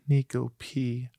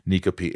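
First: The name is said in a sad tone. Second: The name is said in a neutral tone.

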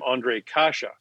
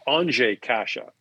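First: The first name is said in an Anglicized way. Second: The first name is said in the Czech way. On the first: This is how the name was said in North America. "remember from Anaheim" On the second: This is how the name is said at home. "Because in Czech, you say Andrzej"

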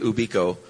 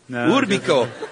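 First: It is said in the speaker's plain accent. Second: It is said in a put-on Latin-sounding accent.

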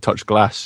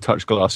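First: It is said in a northern English accent. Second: It is said in a non-northern English accent.

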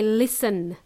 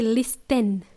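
First: The T sound in the middle is silent. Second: The T sound in the middle is pronounced. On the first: The speaker calls it right. "we say listen. T is silent" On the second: The speaker calls it wrong. "We don't say listen"

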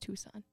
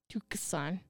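First: The C sound is left silent. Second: The C sound is pronounced in the middle. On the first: The speaker calls it right. "It's just Tucson" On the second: The speaker calls it wrong. "You really pronounce that C in there"

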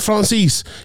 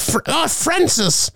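First: The name is pronounced with French sounds. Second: The name is pronounced with English sounds. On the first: The speaker calls it right. "But you can't say Francis" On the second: The speaker calls it wrong. "You have to say Francis"

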